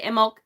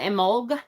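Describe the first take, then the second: First: It ends with a slight K sound. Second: It ends with a G sound. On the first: "there's a very slight C sound at the end of it for me" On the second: "with a G"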